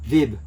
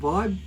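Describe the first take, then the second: First: The vowel is short, as in 'bib'. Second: The vowel is long, as in 'vibe'. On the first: "it's spelled V I B" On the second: "Some people pronounce it Vibe"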